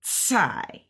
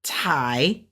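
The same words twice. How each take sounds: First: "Tsai" opening on a sustained ts, slowly; stretched T in TSAI. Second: "Thai" starting on an ordinary puffed T; plain T in THAI. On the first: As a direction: draw the start of "Tsai" into a long ts hiss. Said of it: "it's that stretching that T". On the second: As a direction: say "Thai" with a simple T, no s after it. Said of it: "opposed to just saying". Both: Shown as a demonstration.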